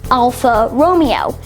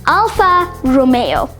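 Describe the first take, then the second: First: The middle of Romeo does not sound like 'may'. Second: The middle of Romeo sounds like 'may'. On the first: The speaker calls it wrong. "commonly mispronounced as" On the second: The speaker calls it right. "That's May as M A Y, the month May"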